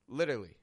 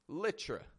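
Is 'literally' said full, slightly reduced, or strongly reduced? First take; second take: slightly reduced; strongly reduced. First: One middle syllable is dropped from the word. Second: The word is squeezed down to a short form. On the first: "It's subtle, but I've taken out a syllable from the middle" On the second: "The other way is"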